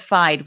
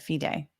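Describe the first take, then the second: First: It is said as one syllable, rhyming with ride. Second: It is said as two syllables, fee-day. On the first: The speaker calls it wrong. "which is what my instinct would have been" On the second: The speaker calls it right. "I I I stand corrected"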